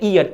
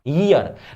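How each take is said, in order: First: The word begins directly with a vowel. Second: The word begins with a y sound. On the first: It means the body part used for hearing. The speaker calls it wrong. "लेकिन अक्सर लोग इसको क्या बोलते हैं" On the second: It means a period of twelve months. The speaker calls it right. "थोड़ा pronunciation भी ठीक कर लो"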